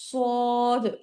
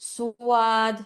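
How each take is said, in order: First: The vowel follows directly, with no glide. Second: A w-like glide comes before the vowel. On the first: The speaker calls it right. "সবাই হচ্ছে সদ" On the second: The speaker calls it wrong. "এরকম ভাবে পড়বেন না"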